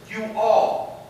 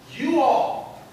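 First: "You all" said a bit louder, stressed; "You all" firmly stressed. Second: "you all" lifted high and louder; "you all" said high and louder, stressed for emphasis. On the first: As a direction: push "You all" to include everyone. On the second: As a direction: lean on "you all" so it includes everyone. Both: Acted. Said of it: "he doesn't just say to his disciples".

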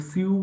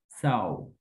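First: সিউ with an "ee-oo" vowel in place of "au"; misread by letters. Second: সাউ as one syllable, s plus a falling "au" glide; pronounced by sound. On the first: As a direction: read it off the spelling as সিউ. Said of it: "সিউ যদি পড়ে ফেলেন এইভাবে". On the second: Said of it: "এখন কেউ সিউ যদি পড়ে ফেলেন". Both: Shown as a demonstration.

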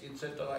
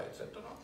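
First: Said in the usual way. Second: Trailing off into a whisper. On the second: Shown as a demonstration. Speaker trails off, ending the list in a whisper. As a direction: breathe the last et cetera.

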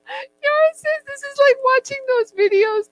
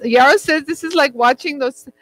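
First: Much higher, mock voice of a friend; mimicking Yara. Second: Said in the usual way. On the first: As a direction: parrot Yara back in a put-on high voice. Repeats Yara's words in higher voice.

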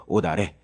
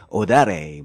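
First: Said in the usual way. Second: "오다레" with an exaggerated Spanish-style accent; put-on Spanish sound on "오다레"; mock Spanish pronunciation. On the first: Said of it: "자연스럽게 발음을 하셔야 되겠죠". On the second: Shown as a demonstration. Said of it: "스페인 발음 뭐 이런 것처럼 오다레 뭐 이렇게 하는 건 아니고".

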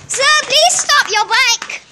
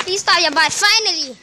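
First: High, slow, drawn-out shout; calling out. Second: Said in the usual way. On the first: Pretend. Police officer chasing a cyclist, calling out high. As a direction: call after someone riding away, stretching the words.

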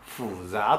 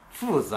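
First: 複雑 with Beijing dialect tones instead of fourth then second; 複雑 the way Beijingers say it, dialect tones. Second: 複雑 as fùzá, fourth tone then rising second tone; 複雑 in clean Putonghua tones, falling then rising; standard Mandarin 複雑. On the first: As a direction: local Beijing 複雑. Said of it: "北京方言で". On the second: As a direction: textbook 複雑 with tones four and two. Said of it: "四声と二声ですね". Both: Shown as a demonstration.

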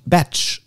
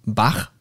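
First: Batch said as betch; English Batch. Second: Bach with German ch, bax. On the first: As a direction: Batch with tsch, English style. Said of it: "naja, Bach". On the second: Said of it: "äh, oder, naja, Bach". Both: Shown as a demonstration.

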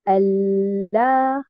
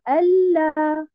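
First: Allah with a doubled l, stress on the first syllable; correct Allah. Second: Allah with the stress misplaced; wrong Allah. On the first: Teacher shows the joined reading of Allah. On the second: Teacher contrasts the wrong stress on Allah. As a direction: show the incorrect Allah. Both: Shown as a demonstration. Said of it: "et non pas".

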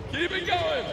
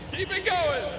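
Both takes have the same delivery.

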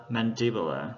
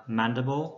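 First: "mandibular" stressed on the second syllable. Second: "mandible" stressed on the first syllable. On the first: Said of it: "tịnh từ thì trọng âm rơi vào âm thứ hai". ("mandibular" nhấn âm thứ hai) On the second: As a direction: hit MAN at the start of "mandible". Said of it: "danh từ trọng âm rơi vào đầu". ("mandible" nhấn âm đầu tiên) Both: Shown as a demonstration.

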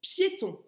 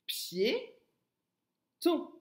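First: Said in the usual way. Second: "pied", a long pause, then higher "ton"; teacher sounding out "pied, ton"; split into syllables. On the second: Shown as a demonstration. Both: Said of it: "Bien articuler".

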